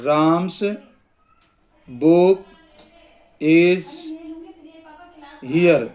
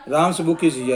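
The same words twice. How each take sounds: First: One word at a time, long pauses; slow dictation. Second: Said in the usual way. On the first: Shown as a demonstration. Teacher writing out a possession example, slow dictation. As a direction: dictate slowly, leaving time to write.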